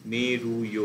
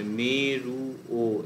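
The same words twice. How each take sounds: First: "মেরুয়" with a very brief "য়" glide at the end; short ya glide. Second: "মেরু ও" said slowly with a separate full "ও" after "মেরু"; teacher showing students the wrong way: "মেরু ও" slow with the "ও" split off; wrong way, split vowel. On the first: Teacher to students, modelling the right way: "মেরুয়" with a short glide. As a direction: say "মেরুয়" as one word ending in a tiny "ইয়" sound. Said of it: "খুব ছোট্ট করে একটা ইয়ের মতন উচ্চারণ".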